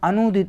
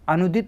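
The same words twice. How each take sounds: First: The vowel after 'an' is a long u. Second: The vowel after 'an' is a short u. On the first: The speaker calls it right. "बड़ा ऊ का मात्रा होगा" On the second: The speaker calls it wrong. "अनुदित नहीं होता"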